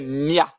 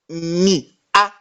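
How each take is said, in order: First: The two vowels are merged into one syllable. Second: The two vowels are said as separate syllables. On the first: The speaker calls it right. "Ça devient mia" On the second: The speaker calls it wrong. "dire mi a, c'est difficile"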